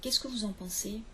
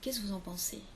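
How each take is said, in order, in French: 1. Chaque syllabe est prononcée en entier. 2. Des syllabes tombent et les mots se collent. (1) "au lieu de dire" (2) "on entend beaucoup de gens qui disent"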